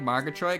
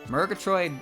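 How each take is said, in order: First: The first syllable has an 'ar' vowel. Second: The first syllable has an 'ur' vowel. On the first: "I like Margatroyd because it's a lot easier to say" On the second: "the U is what makes me think it wouldn't be pronounced the same way"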